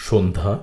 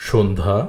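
Both takes have the same delivery.

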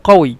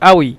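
First: The word begins with a 'q' sound. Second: The word begins with a glottal stop. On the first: This is the written form. "লেখার ক্ষেত্রে কফ ওয়াও ইয়া কউই" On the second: This is the Egyptian spoken form. "মিশরের ভাষা হলো দ্য গলি আউই"

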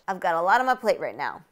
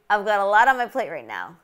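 First: The words are linked and reduced, with weak vowels. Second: The words are linked and reduced, with weak vowels.

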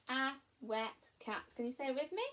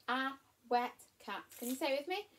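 Both takes have the same delivery.

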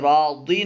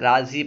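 First: The middle consonant is a 'd' sound. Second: The middle consonant is a 'z' sound. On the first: The speaker calls it wrong. "इसे रादी नहीं पढ़ना है" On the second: The speaker calls it right. "राजी पढ़ना है"

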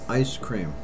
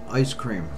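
Both takes have the same delivery.

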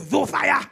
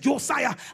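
First: The name begins with a Z sound. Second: The name begins with a J sound. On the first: The speaker calls it wrong. "I could not pronounce J, so I used to say" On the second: The speaker calls it right. "my brother's name is"

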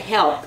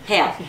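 First: The word is said with a standard pronunciation. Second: The word is said with a Southern pronunciation. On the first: This is not how the mother said it. "She wouldn't say help" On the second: This is how the mother said it. "It was help"

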